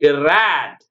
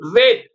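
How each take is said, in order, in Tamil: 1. உயிரெழுத்து 'cat' இல் உள்ள 'a' போல ஒலிக்கிறது. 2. உயிரெழுத்து 'day' இல் உள்ள 'ay' போல ஒலிக்கிறது. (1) "அப்படி படிக்கணுங்க" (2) "அப்படி வருதா? இல்ல"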